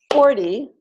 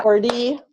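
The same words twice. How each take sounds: First: "forty" with FOR punched high; stress on first syllable. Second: "forty" with a long, rising TY; stress on second syllable. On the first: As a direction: correct it to FOR-ty in "forty". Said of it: "stress on the first syllable". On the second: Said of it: "Not forty". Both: Shown as a demonstration.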